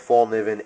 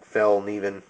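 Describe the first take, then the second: First: The first syllable sounds like 'fall'. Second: The first syllable sounds like 'fell'. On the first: The speaker calls it wrong. "I know I'm not saying that correctly" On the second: The speaker calls it right. "It's more like Fellkniven"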